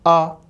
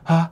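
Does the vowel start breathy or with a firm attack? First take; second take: firm attack; breathy. First: The vowel starts with a firm, tight attack. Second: The vowel starts with breathy, leaking air. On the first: The speaker calls it right. "kalau kalian attack, tight gitu" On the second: The speaker calls it wrong. "jangan sampai ha"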